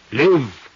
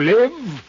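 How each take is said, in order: First: "Live." said firm and falling; stress on live. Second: "Live." flung up high and loud; ecstatic live. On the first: Old thief savouring his dream, "Live." pressed down. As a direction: hit "Live." hard, then let it drop. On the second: Old thief exulting to the detective, "Live." cried out high. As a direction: cry "Live." higher and louder, exultant. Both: Acted.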